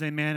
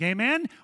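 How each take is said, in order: First: The voice falls at the end. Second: The voice rises at the end.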